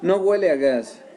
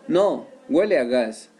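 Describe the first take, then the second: First: It is said without a pause after no. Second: It is said with a pause after no. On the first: It does not smell of gas. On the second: No; it does smell of gas.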